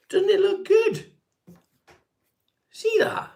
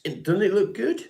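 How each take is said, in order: First: Very high, slow squeal of mock pride; high falsetto showing off his hair; mock squeaky delight. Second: Mock proud. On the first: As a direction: squeal it like a thrilled child. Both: Showing off his combed-over hair.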